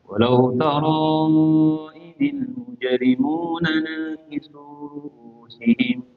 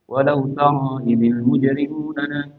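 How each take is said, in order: First: It is recited slowly and carefully. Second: It is recited quickly and briskly.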